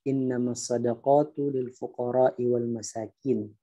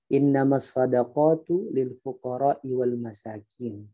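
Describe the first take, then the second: First: All the vowels are read short. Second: The same.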